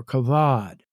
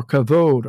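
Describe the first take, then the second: First: "kavad" with an open AH in the last syllable; alternate pronunciation. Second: "kavod" with a long OH in the last syllable; alternate pronunciation. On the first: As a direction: say "kavad" as kuh-VAHD. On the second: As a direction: say "kavod" as kuh-VOHD. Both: Shown as a demonstration. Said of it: "or some say".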